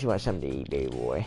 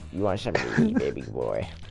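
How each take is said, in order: First: The voice is put on deep and low. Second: The voice is at a normal pitch.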